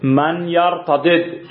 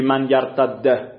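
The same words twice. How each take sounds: First: یرتدد said slowly with both dals separate; teacher models یرتدد unmerged; both dals sounded. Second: یرتد said with the dals merged into one; teacher quotes the wrong merged form. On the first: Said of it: "الان نمیتونی بگی من یرتد". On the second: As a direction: clip یرتد to a single dal. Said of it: "نمیتونی بگی". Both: Shown as a demonstration.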